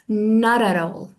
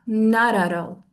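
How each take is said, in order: The two takes are said the same way.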